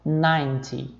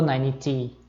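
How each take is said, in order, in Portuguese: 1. A sílaba tônica fica na primeira sílaba. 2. A sílaba tônica fica na última sílaba. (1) "a sílaba tônica já fica aqui no começo" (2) "eu não falo"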